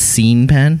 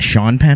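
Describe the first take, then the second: First: The first name is said as spelled. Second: The first name is said in its usual way. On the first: The speaker calls it wrong. "it's Scene Penn" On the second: The speaker calls it right. "it's not Sean Penn"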